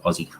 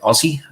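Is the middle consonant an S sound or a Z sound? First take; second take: Z sound; S sound. First: The middle consonant is a Z sound. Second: The middle consonant is an S sound. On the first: The speaker calls it right. "It's it's more of a Z. So it's Aussie" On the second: The speaker calls it wrong. "a lot of Americans will say Aussie, and it's it's not a s sound"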